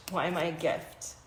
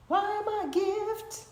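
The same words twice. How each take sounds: First: Said in the usual way. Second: Much higher, lilting read; high sing-song. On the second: Shown as a demonstration. Host reading the question card, high lilt. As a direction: lift Why am I a gift way up playfully.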